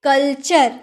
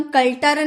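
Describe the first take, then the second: First: कल्चर with "ch", as kul-chur; कल्चर ending "chur", the t turned to ch; correct CH pronunciation. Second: कल्टर with a hard "t", kul-tur; कल्टर ending "tur" instead of "chur"; wrong T pronunciation. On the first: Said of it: "क्या पढ़ेंगे?". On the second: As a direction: say कल्टर as the misreading of culture. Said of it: "कल्टर नहीं पढ़ेंगे". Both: Shown as a demonstration.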